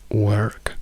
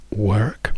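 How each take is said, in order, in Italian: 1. Si pronuncia con accento americano. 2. Si pronuncia con accento americano.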